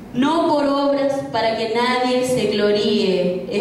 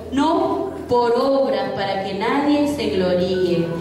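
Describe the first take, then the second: The two takes are said the same way.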